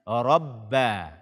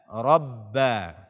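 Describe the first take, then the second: No difference in how they are said.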